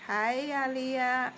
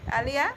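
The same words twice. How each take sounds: First: Testing how to say "Aliyah"; "Aliyah" said slowly as hi-AH-lee-uh; unsure name. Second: "Aliyah" as AH-lee-uh with a questioning rise; tentative, asking if "Aliyah" is right; checking the name. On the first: Reading a commenter's name aloud, trying out the pronunciation. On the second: Vlogger double-checking a viewer's name, questioning rise. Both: Shown as a demonstration. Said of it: "Is that how it pronounced?".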